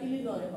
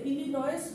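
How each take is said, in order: First: The word ends without an s sound. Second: The word ends with an s sound. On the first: The speaker calls it right. "ইলিনয় হবে" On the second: The speaker calls it wrong. "ইলিনয়েস হবে না"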